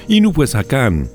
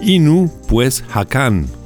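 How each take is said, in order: First: The name is said at a faster pace. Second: The name is said at a slower pace.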